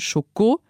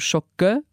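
First: The second syllable has a full o vowel. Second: The second syllable is reduced to a weak vowel. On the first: This is the French way of saying it. "das hat man im Französischen noch als O gesehen" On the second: This is the Luxembourgish way of saying it. "geht bei uns zu Schokke, weil es ein Reduktionssilbe ist"

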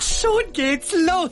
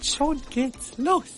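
First: The phrase is said loudly. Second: The phrase is said quietly. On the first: "Mama laut" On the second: "Mama leise"

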